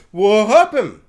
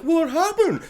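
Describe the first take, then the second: First: Louder, emphatic repeat; louder, insistent "What happened?"; louder Tom. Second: Higher, light innocent ask; high, mock-innocent "What happened?"; Tom's innocent question. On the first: Retold or imitated. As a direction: hit it harder the second time. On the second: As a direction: play dumb, pitched up. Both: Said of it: "Tom comes in being like".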